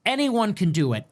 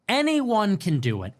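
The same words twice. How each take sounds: The two takes are said the same way.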